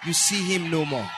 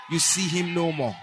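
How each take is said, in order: Both takes have the same delivery.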